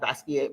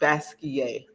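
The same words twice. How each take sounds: First: The final T sound is pronounced. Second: The final T sound is left silent. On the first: The speaker calls it wrong. "a lot of people say Basquiat" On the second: The speaker calls it right. "the French pronunciation"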